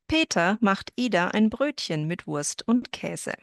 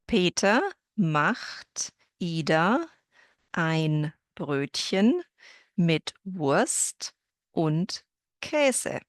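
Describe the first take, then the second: First: The sentence is spoken at a somewhat quicker pace. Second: The sentence is spoken very slowly, word by word. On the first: "a little faster" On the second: "that was very slow so that you can hear every individual word"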